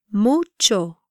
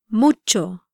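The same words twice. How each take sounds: First: "Mucho" slower, in two clear syllables; "Mucho" with a lengthened u; careful pronunciation demo. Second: Said in the usual way. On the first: Shown as a demonstration. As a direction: draw out "Mucho" slightly for learners. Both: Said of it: "try pronouncing these words".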